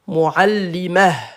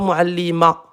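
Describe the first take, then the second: First: The word ends with an audible breathy h. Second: The word ends on a plain open vowel. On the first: The speaker calls it right. "Il y a le à la fin" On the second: The speaker calls it wrong. "Pas muallima"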